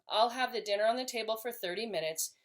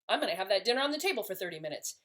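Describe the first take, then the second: First: It is said calmly and with empathy. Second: It is said with anger and frustration.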